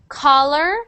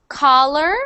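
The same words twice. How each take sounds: No difference in how they are said.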